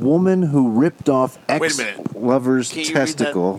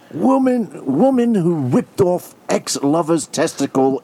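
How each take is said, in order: First: It is read in the speaker's usual accent. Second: It is read in an English accent.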